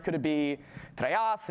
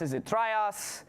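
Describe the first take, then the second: First: Trias drawn out slowly, one vowel tried; sounding out a form. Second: Trias said very slowly with a different vowel quality; sounding out a variant. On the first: Lecturer sounding out a possible proto form, slow. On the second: Lecturer trying a second vowel for trias, very slow. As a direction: try the other version of trias, slower still. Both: Shown as a demonstration.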